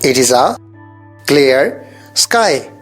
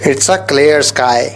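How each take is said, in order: First: It and is are said as two words. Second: It is contracted to one syllable, its. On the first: "it is भी use कर सकते हैं" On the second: "short form में it's"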